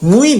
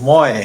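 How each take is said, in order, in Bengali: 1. 'm'-এর পরের স্বরধ্বনিটি 'u' উচ্চারণ। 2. 'm'-এর পরের স্বরধ্বনিটি 'o' উচ্চারণ। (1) "মুই না"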